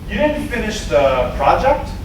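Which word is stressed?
the. The stress falls on the word the. It was the one important project. "One project. Like, that's the one she should know about"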